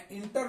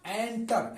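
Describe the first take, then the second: First: इंटर said with an i sound at the start; the wrong way people say इंटर, starting with i; common mispronunciation. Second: एंटर said with an e sound at the start, not i; correct pronunciation. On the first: Teacher to students, showing the common mistake, इंटर with i. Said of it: "इसे इंटर लोग पढ़ते हैं". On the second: Teacher to students, correcting the mistake, एंटर with e. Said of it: "इंटर नहीं होता है". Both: Shown as a demonstration.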